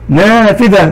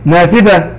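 First: نافذة with a drawn-out "aa" after the ن; long alif. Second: Said in the usual way. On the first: Shown as a demonstration. Teacher showing pupils the alif madd, نافذة with long "aa". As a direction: stretch the first vowel of نافذة into a long "naaa". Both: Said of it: "مد الألف".

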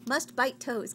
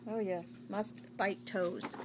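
First: Said in the usual way. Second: Wookiee voice. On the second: Pretend. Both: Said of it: "now you're a Wookiee, like Chewbacca".

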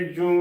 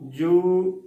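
First: ਜੂ nasalised, like joon; demonstrated mistake, ਜੂ with tippi; wrong nasal vowel. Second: ਜੂ long and slow, pure oo; careful drawn-out ਜੂ; correct oral vowel. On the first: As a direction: send the oo of ਜੂ through the nose. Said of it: "ਇਸ ਦਾ ਗਲਤ ਉਚਾਰਨ". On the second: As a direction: hold ਜੂ with no nasal. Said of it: "ਸ਼ੁੱਧ ਉਚਾਰਨ ਹੈ". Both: Shown as a demonstration.

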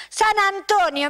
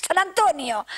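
First: "San Antonio" said higher and slower, with weight on "San"; emphatic repeat. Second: Said in the usual way. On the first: Shown as a demonstration. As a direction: stretch out "San Antonio" and lift it proudly. ("San Antonio" más agudo y lento, marcando "San")

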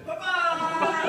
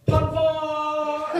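First: High yelping pop-star cry with a laugh; a hint of a pop-star squeal on "Papa!". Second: High, loud sung-out yell of "Papa!". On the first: Showing the audience how the yell sounded. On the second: Retold or imitated. [name] yelling mid-take to shock the crew. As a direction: belt out "Papa!" like a wild cry. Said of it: "and he yells".

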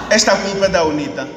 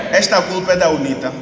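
The two takes are said the same way.

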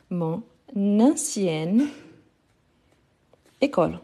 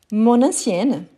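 First: "mon... nancienne... école", very slow with long pauses; slow breakdown. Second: "mon ancienne" joined as mon-nancienne; liaison. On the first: Teacher breaking the example down, very slow, word by word. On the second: Teacher giving an example, "mon ancienne" linked in one go. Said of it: "pourquoi ça". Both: Shown as a demonstration.

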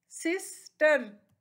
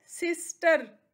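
First: sister slowly, pause between सिस and टर; two separate beats in sister; split into syllables. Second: Said in the usual way. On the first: Shown as a demonstration. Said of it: "इसके टू syllables हैं". (Sister को दो हिस्सों में रुककर) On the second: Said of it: "next है".

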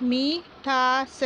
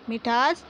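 First: मिठास drawn out slowly, syllable by syllable; slow syllable reading. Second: Said in the usual way. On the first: Shown as a demonstration. Teacher reads मिठास slowly, syllable by syllable. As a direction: stretch मिठास out slowly for the children. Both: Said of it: "छोटी ई की मात्रा को किस प्रकार पढ़ना है".

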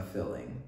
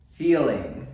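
First: "filling" said with a short i, the Texas way. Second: "Feeling" with a long clear ee, said louder; corrected "Feeling". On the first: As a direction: drawl "filling" for feeling like a Texan. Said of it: "my Texas accent just came out when I said filling". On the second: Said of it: "when I said filling". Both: Shown as a demonstration.

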